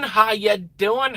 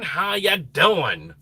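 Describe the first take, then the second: First: Sing-song greeting. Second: Said in the usual way. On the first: Real, not acted.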